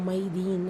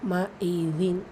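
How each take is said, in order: First: The vowels run together into one glide. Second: The vowels are kept apart with a break. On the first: The speaker calls it wrong. "மைதீன்னு சொல்லக்கூடாது" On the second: The speaker calls it right. "அதில் கவனம் செலுத்துங்க"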